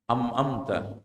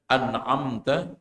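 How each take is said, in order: First: The first syllable ends with an 'm' sound. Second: The first syllable ends with an 'n' sound. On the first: The speaker calls it wrong. "Am amta salah" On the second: The speaker calls it right. "Pengen membaca an'amta"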